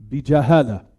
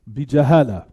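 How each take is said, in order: Both takes have the same delivery.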